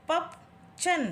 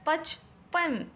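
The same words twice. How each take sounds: First: पपचन read as written, a wrong spelling; reading a wrong option. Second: पचपन drawn out slowly, syllable by syllable; slow correct reading. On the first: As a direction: sound out पपचन as a wrong choice. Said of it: "सही answer कौन सा होगा?". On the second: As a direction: read पचपन slowly as the right answer. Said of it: "ये वाला". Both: Shown as a demonstration.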